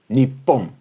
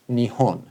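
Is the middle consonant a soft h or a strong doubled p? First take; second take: strong p; soft h. First: The middle consonant is a strong doubled p. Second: The middle consonant is a soft h sound. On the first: It carries a hint of nationalism. "which has that that strong uh, consonant sound" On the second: It avoids a nationalistic tone. "They always call this country Nihon"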